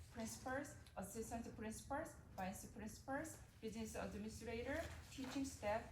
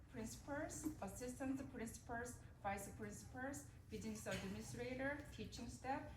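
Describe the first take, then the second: Both takes have the same delivery.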